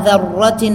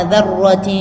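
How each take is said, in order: Both takes have the same delivery.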